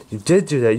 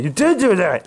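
First: Said in the usual way. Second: Angry accusation. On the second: Acted. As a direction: throw the accusation back hard. Angry accusation after calm line.

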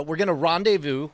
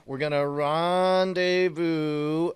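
First: Said in the usual way. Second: Drawn-out rendezvous. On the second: Acted. Player assuring his partner they will meet up, drawn out slowly.

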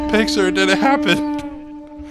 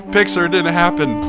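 First: Very high, loud, slow squeal; excited squeal. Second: Loud, high, triumphant call; excited crowing. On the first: Gamer celebrating getting the picture, drawn-out high squeal. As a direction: squeal it out in triumph. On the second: Gamer celebrating getting the picture, loud excited crowing. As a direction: crow it out loudly. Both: Real, not acted.

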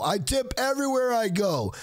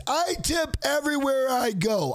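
First: Said in the usual way. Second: "I tip everywhere I go" with a slight push on "I"; emphatic first statement. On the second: Real, not acted. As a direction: lean into "I" to insist.

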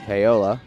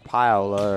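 First: "Paola" said pay-OH-la; alternative pronunciation. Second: "Paola" said PIE-oh-la; alternative pronunciation. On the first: Commentator unsure of player's name, "Paola" as pay-OH-la. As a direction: say "Paola" with a first syllable like "pay". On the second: Commentator trying the name another way, "Paola" as PIE-oh-la. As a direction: say "Paola" with a first syllable like "pie". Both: Real, not acted. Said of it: "or however you say it".

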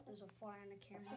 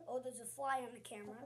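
First: Softer, fast mutter under the breath; quick quiet aside about the fly. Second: Said in the usual way. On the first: Real, not acted. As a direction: mumble it to yourself. Repeats fly remark.

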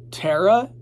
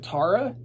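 First: "Tara" as TEH-ruh, questioning rise; TEH-ruh pronunciation. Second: "Tara" as TAH-ruh, questioning rise; TAH-ruh pronunciation. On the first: Unsure how the name goes, "Tara" said TEH-ruh. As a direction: say "Tara" with first vowel as in "air". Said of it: "Or is it Tara?". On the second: Checking the other way of saying it, "Tara" as TAH-ruh. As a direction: say "Tara" with first vowel as in "father". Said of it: "If, if Jack says it's Tara". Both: Shown as a demonstration.

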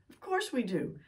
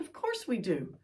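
First: Course stressed and said higher; insistent second "Of course we do"; emphatic repeat. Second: Said in the usual way. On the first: Shown as a demonstration. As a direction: lean on course, rising pitch. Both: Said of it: "Don't you and I feel better".

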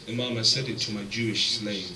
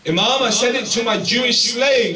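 First: Said in the usual way. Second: Emphatic loud repeat. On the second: Retold or imitated. Preacher repeating the companion's excuse, loud and emphatic. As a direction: hammer the excuse home with full force.

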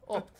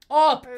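First: Said in the usual way. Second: High, very loud cry; explosive celebratory shout; triumphant shout. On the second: Real, not acted. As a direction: yell the score out in triumph. Celebrates the score.

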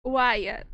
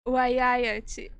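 First: "Wyatt" as short, loud uai-a; English pronunciation. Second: "Wyatt" as uai-ai-a-tchi, loud; Portuguese pronunciation. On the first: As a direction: say "Wyatt" English-style, without the tchi ending. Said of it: "E no inglês?". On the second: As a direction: say "Wyatt" Brazilian-style, ending in tchi. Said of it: "No português, ela fala Wai, Wyatt". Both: Shown as a demonstration.

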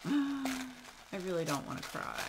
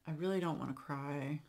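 First: Higher, laughing through the words. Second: Said in the usual way. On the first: Real, not acted. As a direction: laugh it off nervously. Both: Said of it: "she said might make me cry".

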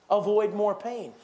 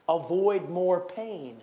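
First: "Avoid more pain" slow with "Avoid" punched; repeated with more force. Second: Each word slow and weighty; slow emphatic. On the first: Preacher repeating point number three to the church, firmer and slow. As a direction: press the point home on the repeat. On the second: Preacher drilling a point to the congregation, slow and weighty. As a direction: lay the words down slowly, one by one. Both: Shown as a demonstration.

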